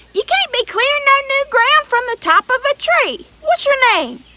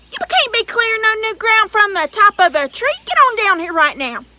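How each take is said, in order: First: Higher, louder giant voice; giant insisting. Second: High, loud giant demand; giant ordering. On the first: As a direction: push harder, booming up the tree. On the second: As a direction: boss the boy down as the giant. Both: Acted.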